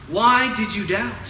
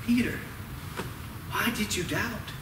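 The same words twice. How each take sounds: First: WHY stretched and pushed at full voice; emphatic questioning. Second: Soft, hushed question with pauses; quietly voiced retold reproach; hushed gentle reproach. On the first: Retold or imitated. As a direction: press the question, leaning on "Why". Repeats Jesus's question with more force. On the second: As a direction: ask it very quietly, as a tender rebuke. Jesus gently questions sinking Peter.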